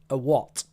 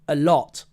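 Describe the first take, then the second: First: The starting L becomes an ooh vowel sound. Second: The starting L is a clear L sound. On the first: The speaker calls it wrong. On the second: The speaker calls it right.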